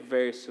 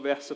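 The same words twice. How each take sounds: First: The R is strongly dragged out. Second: The R is soft, not dragged out. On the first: "o meu sotaque é verso, né, gente? Vocês vão ter que acostumar com esse R bem arrastado" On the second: "eu vou tentar falar um pouco diferente"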